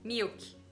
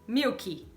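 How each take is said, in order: First: The word ends cleanly on the k sound. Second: An extra 'ee' vowel is added after the k. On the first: The speaker calls it right. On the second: The speaker calls it wrong.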